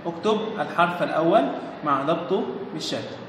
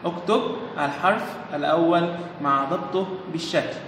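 First: Said in the usual way. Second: Dictating the line at a slow pace; slow dictation so children follow; slow read instruction. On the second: Shown as a demonstration. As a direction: read the instruction slowly and deliberately for the class. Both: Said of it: "بيقول إيه؟".

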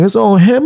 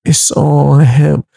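First: Higher, rising disbelief on him; friend's disbelieving question. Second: Slow, every word of It's on him leaned on; slow firm insistence. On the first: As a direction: echo it back as a shocked question. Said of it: "He's like". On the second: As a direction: lay It's on him down slowly and firmly. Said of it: "I was like". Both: Retold or imitated.

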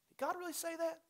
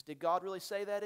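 First: Tempter's question asked much higher; a high, sly, doubting voice; the enemy's voice. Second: A light hint of the tempter questioning; barely voiced serpent asking Eve; the enemy's voice. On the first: Acted. Pastor mimicking the enemy's doubt, pitched high. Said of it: "the two questions". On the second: Pastor quoting the enemy to Eve, lightly voiced. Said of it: "He says".

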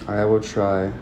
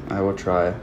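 The two takes are said the same way.

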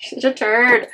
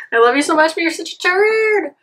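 First: Said in the usual way. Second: Higher pet-talk voice, turd falling; fond high scolding of the cat, saying turd. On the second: Real, not acted.

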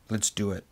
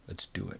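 First: Said in the usual way. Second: Much softer repeat, sinking into resignation; a quiet, defeated echo of the first take; resigned murmur. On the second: Retold or imitated. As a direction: let it fall away under your breath. Repeats his decision, resigned.

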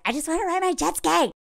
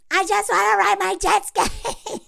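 First: A hint of a giddy guy dreaming of jet skis; mock him lightly, a touch higher; lightly voiced carefree Jeremy. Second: High, sing-song whine of a carefree guy; hammed-up giddy Jeremy. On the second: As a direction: stretch it high like a kid begging for a toy. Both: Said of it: "he's all like".

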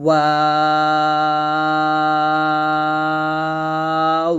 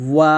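First: ওয়াও held very long, lips rounded; long drawn letter. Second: ওয়াও clipped short with rounded lips; a quick ওয়াও with round lips; short letter demo. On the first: Teacher holding the letter ওয়াও out long. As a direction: stretch ওয়াও out slowly. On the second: Teacher's first quick take of ওয়াও. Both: Shown as a demonstration. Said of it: "এরকমভাবে আমরা উচ্চারণটা করব".

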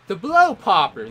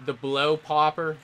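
First: "The blow popper" declared louder and higher; name it like a proud title; proud announcement. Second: Said in the usual way. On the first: Shown as a demonstration. Naming his move to teammates, in a loud proud declaration. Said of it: "There we go".

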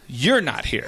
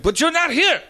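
First: Low, understated comeback; deadpan retort. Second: High, pushed mimicry of protest; insistent driver. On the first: Retold or imitated. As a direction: answer back dryly in a lowered voice. Teller's deadpan reply to driver. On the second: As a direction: imitate a caller insisting, pitch climbing.

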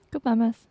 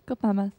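No difference in how they are said.

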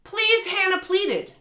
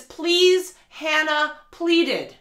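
First: High, slow overwrought plea, higher; exaggerated pleading read of a cringey sentence; mock dramatic pleading. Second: Mocking the line. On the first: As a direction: ham up the bad line to mock it. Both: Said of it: "a line in the book where it says".

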